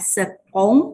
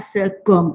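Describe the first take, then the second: First: The middle consonant is a K sound. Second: The middle consonant is a hard G sound. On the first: The speaker calls it wrong. "dia tidak dibaca sekong ya" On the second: The speaker calls it right. "tapi dibaca segong"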